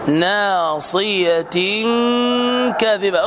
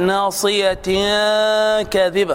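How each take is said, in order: First: The n sound blends toward the k position. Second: The n sound is pronounced clearly before the k. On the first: The speaker calls it right. "ادخل على مخرج الكاف" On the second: The speaker calls it wrong. "لا تقل ناصية كاذبة خطأ"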